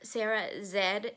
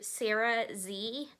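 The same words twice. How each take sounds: First: The letter Z is said as zed. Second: The letter Z is said as zee.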